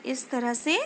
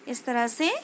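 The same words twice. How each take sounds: The two takes are said the same way.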